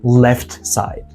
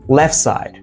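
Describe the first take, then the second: First: The T sound is pronounced. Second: The T sound is dropped. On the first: The speaker calls it wrong. "not left side" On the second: The speaker calls it right. "Drop T"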